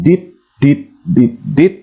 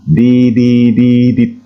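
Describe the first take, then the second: First: The four sounds are separated by gaps. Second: The four sounds run together evenly. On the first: It would be read as four separate letters. The speaker calls it wrong. "kesannya akan terputus dan bersepasi" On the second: It is read as one single letter. The speaker calls it right. "Dilapaskan ya dengan tempo yang sama"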